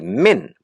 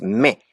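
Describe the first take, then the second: First: The word ends with a clearly sounded n consonant. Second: The word ends abruptly on a nasal vowel. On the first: The speaker calls it wrong. "you're going to say men" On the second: The speaker calls it right. "It stops uh, abruptly"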